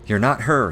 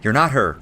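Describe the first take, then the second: First: It is said softly, without force. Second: It is said forcefully and loudly.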